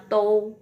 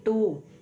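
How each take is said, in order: First: The syllable ends in an 'oh' glide. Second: The syllable ends in a plain 'oo' vowel. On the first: The speaker calls it wrong. "tidak dibaca to ya" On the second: The speaker calls it right. "tapi tu ya"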